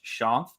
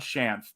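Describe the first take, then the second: First: The name is said differently from its spelling. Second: The name is said the way it is spelled. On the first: The speaker calls it right. "but it's pronounced Shanth" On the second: The speaker calls it wrong. "That's why people want to pronounce it that way"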